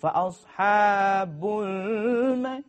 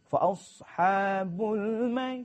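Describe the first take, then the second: First: The phrase is said slowly. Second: The phrase is said quickly. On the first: The speaker calls it wrong. "Kalau lambat" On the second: The speaker calls it right. "kena cepat"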